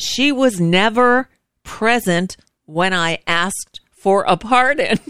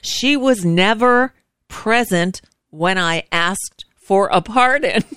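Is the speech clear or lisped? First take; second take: clear; clear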